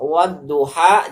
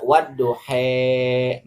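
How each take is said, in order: First: The final vowel is a plain open a. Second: The final vowel is tilted toward e. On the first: This is the reading without imalah. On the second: This is the imalah reading of other imams.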